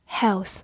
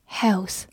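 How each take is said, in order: Both takes have the same delivery.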